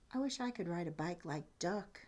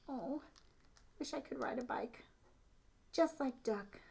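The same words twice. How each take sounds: First: Said in the usual way. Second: Higher, soft breathy wish; wistful little mouse. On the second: Shown as a demonstration. Little mouse dreams of riding, wistful and soft. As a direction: sigh it like a tiny longing mouse. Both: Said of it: "So look at the little mouse".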